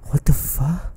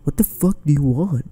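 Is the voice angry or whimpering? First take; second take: whimpering; angry. First: It is said as a frightened whimper. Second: It is said in an angry, commanding tone.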